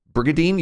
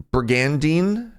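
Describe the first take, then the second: First: "Brigadine" as brig-a-deen, middle N dropped; higher, questioning "Brigadine" with no N before the D; Brigandine without the N. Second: "Brigandine" slowly sounded out, N before the D pronounced; hesitant "Brigandine", read as spelt with brig-an-deen. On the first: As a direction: ask "Brigadine", skipping the middle N. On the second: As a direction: try "Brigandine" slowly as a question, keeping the middle N. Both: Shown as a demonstration. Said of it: "You just don't pronounce the N?".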